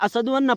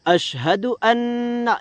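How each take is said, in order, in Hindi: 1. पहला शब्द सादा 's' की आवाज़ से शुरू होता है। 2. पहला शब्द 'sh' की आवाज़ से शुरू होता है। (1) "छोटा सीन निकालते हैं, बड़ा नहीं निकालते" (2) "यहाँ बड़ा शीन और छोटा हा"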